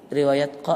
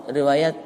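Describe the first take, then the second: The two takes are said the same way.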